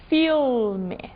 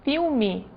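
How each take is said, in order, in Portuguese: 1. O L é falado como um L claro. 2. O L é falado como a vogal U. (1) "vão falar L" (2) "eu estou dizendo um U"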